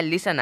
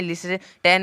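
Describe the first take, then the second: First: लिसन said lis-sun, t silent; correct pronunciation. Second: लिसन said as lis-ten with the t; wrong pronunciation. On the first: Teacher demonstrating the right way, लिसन with silent t. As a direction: drop the t in लिसन. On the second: Teacher demonstrating the wrong way, लिसन with t. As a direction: sound the t in लिसन as the error. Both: Shown as a demonstration. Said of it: "टी का कोई भी उच्चारण नहीं निकला है लिसन में".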